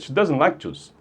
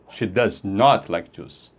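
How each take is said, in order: First: The negative is contracted, in a plain delivery. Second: The negative is said in full, with emphasis. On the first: It is a neutral statement of dislike. "essa abreviação aqui é só para fazer a parte oral mais rápida" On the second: She really does not like it. "Você está enfatizando que ela realmente não gosta de suco"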